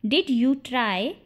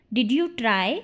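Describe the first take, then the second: First: Slowed, word-by-word question; slow model repeat. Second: Said in the usual way. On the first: Shown as a demonstration. Teacher repeats the question for English learners, slowly.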